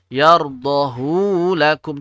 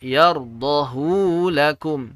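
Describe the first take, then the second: First: The vowel of hu is drawn out long. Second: The vowel of hu is drawn out long.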